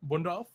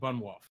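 First: The name is said with a D sound. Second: The name is said without a D sound. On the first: "I pronounced it with like a D" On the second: "or is it Bunwolph?"

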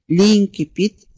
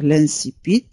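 First: The c is said as a k sound. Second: The c is said as an s sound. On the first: "هذه الكلمة تنطق بطريقتين مختلفتين" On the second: "هذه الكلمة تنطق بطريقتين مختلفتين"

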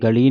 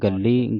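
First: The middle l is short and loose. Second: The middle l is doubled and held tight. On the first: The speaker calls it wrong. "ਗਲੀ ਨਹੀਂ, ਪੋਲਾ ਨਹੀਂ ਪੜਨਾ" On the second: The speaker calls it right. "ਕੱਸ ਕੇ ਪੜਨਾ ਗੱਲੀ"

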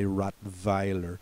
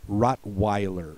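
First: It is said with a German accent. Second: It is said with an American accent.

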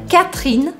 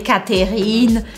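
First: The middle vowel is almost completely dropped. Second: The middle vowel is clearly pronounced. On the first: The speaker calls it right. "Eu praticamente faço esse E do meio desaparecer" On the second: The speaker calls it wrong. "eu não falei Catherine"

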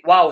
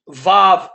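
First: It begins with a w sound. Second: It begins with a v sound.

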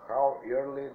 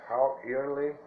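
Both takes have the same delivery.

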